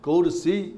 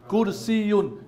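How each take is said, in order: First: The word ends without the -un. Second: The word ends with an added -un.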